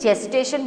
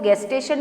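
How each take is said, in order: First: The word starts with a J sound. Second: The word starts with a hard G sound. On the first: The speaker calls it right. "जेस्टेशन बोला जाता है" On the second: The speaker calls it wrong. "इसको गेस्टेशन नहीं"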